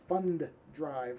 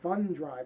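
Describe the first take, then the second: First: Both D sounds are said separately and clearly. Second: The two D sounds run together into one. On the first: "because nobody pronounces it that way" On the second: "I just did it now where I said Fund Drive"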